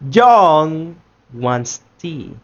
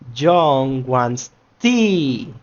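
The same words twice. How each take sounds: First: The word John carries the stress. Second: The word tea carries the stress. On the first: "In the first one, we are making emphasis in John" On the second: "in the third ones, we are making emphasis in the tea itself"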